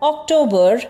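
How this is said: It is said with English pronunciation. "the ideal English pronunciation that I gave you earlier"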